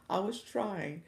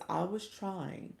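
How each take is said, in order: Both takes have the same delivery.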